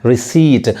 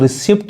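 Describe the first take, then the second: First: The p sound is silent. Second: The p sound is pronounced. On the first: The speaker calls it right. "रिसीट पढ़ेंगे" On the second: The speaker calls it wrong. "इसको रिसिप्ट नहीं कह के"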